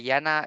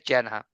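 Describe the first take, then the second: First: The name is said the Dutch way. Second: The name is said the American way. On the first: "Jana is more like the Dutch should speak" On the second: "I say it more like American style"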